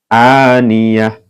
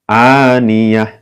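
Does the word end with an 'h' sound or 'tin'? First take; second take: h sound; h sound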